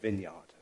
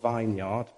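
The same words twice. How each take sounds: First: The first part is said like 'vin'. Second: The first part is said like 'vine'. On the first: "but they pronounce it vineyard" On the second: "which is spelt vineyard"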